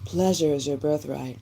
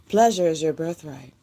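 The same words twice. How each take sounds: First: It is said in a sultry put-on voice. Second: It is said in her normal voice.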